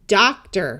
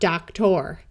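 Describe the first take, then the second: First: The final syllable sounds like a reduced 'er'. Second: The final syllable sounds like a clear 'or'. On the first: The speaker calls it right. "it tends to sound more like er" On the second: The speaker calls it wrong.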